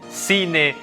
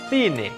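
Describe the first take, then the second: First: The c sounds like English s. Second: The c sounds like English th.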